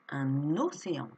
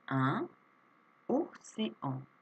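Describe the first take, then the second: First: The n sound links into the next word. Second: The two words are said separately, without linking.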